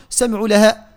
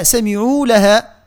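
First: سمعوا لها with the "uu" clipped short; short, swallowed ending on سمعوا; wrong shortened vowel. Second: Slow سمعوا لها with "uu" held; measured, lengthened سمعوا; full long vowel. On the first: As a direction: hurry over the ayn of سمعوا into لها. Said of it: "ما نقولوش". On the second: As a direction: draw out the end of سمعوا before لها. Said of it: "لا". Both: Shown as a demonstration.

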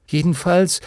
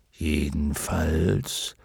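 First: Higher, lifted, making up; conciliatory. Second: Slow, low dragon voice; dignified luck dragon. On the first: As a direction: offer it brightly to make peace. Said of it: "sagte Bastian versöhnlich". (versöhnlich, mit hoher Stimme) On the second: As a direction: cut in deep and drawn out as a dragon. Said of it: "mischte sich nun wieder Fuchur ins Gespräch". (tiefe, gedehnte Drachenstimme) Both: A narrator's reading.

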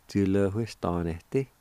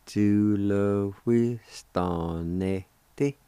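First: "Ju le wi stan ne ti" run together as one word; joined-up, normal pace. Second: "Ju le wi stan ne ti" at half speed, syllables stretched; slow sounding-out. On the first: Teacher giving the whole word for job, joined-up normal pace. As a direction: say Ju le wi stan ne ti smoothly at talking speed. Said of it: "if you say it fast". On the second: Teacher showing how job is pronounced, slow sounding-out. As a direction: draw out each syllable of Ju le wi stan ne ti slowly. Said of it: "if you say it slow". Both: Shown as a demonstration.

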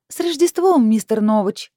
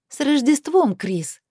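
First: Very high, loud, sweet greeting; sugary singsong. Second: High, mock-festive jibe; caustic drawl. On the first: Heroine buttering up her boss by phone, sickly sweet. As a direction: sing it out sweetly, pitched way up. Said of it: "сладко пропела я в трубку". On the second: Heroine needling Chris before hanging up, caustic. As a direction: sing out the greeting sarcastically, pitched high. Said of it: "протянула язвительно". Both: A narrator's reading.

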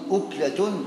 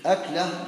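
First: أكلة said as uklatun; rounded "u" starting أكلة; damma on the hamza. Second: أكلة said as aklah; fatha on the hamza. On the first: Teacher defining one mouthful, أكلة starting with "u". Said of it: "وأما بالضم". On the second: Teacher defining one meal, أكلة starting with "a". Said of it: "بفتح الهمزة". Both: Shown as a demonstration.

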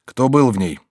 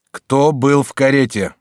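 First: Said in the usual way. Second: "Кто был в карете" slow, louder and emphatic; firm, insistent. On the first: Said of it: "повторил Жильбер тоном более твёрдым". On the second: A narrator's reading. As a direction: demand "Кто был в карете" firmly, word by word. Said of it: "тоном более твёрдым и настойчивым". (твёрдо и настойчиво: «Кто был в карете», медленно и громко)

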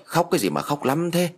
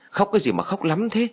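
First: Angry shout. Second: Much higher, exasperated mild yell; loud scolding. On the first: Grandfather at the crying grandson, mild angry shout. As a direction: snap crossly with restrained volume. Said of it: "Ông tức quá liền quát". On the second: Grandmother at the crying child, high-pitched scolding. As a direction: push the pitch up crossly, not the volume. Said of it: "bà quát to". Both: A narrator's reading.

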